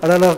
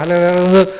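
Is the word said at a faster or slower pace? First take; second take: faster; slower. First: The word is said quickly, running together. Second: The word is said at a normal, slower pace.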